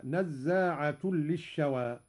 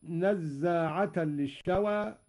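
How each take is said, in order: First: "نزاعة" as nazzaatun, ending in u; nominative ending. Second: Said in the usual way. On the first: Shown as a demonstration. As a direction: recite "نزاعة" slowly with damma tanwin, merged into the ل. ("نزاعة" بالرفع) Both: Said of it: "قرأ قالون برفع نزاعة".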